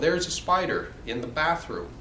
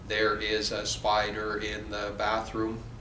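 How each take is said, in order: First: It is said expressively, with rhythmic stress. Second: It is said flatly, without expression. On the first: The speaker calls it right. "Da-da da-da, da-da da-da" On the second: The speaker calls it wrong. "very robotic, very expressionless"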